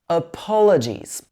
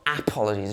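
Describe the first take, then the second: First: The stress falls on the po syllable. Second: The stress falls on a syllable other than po. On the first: The speaker calls it right. "we stress the po syllable" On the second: The speaker calls it wrong. "Not apologies"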